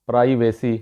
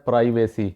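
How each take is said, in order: First: The first syllable sounds like 'pry'. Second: The first syllable sounds like 'pry'.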